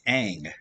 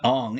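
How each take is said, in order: First: The vowel sounds like the one in 'cat'. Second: The vowel sounds like the one in 'long'. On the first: The speaker calls it right. "it's Ang" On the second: The speaker calls it wrong. "it's not Ong"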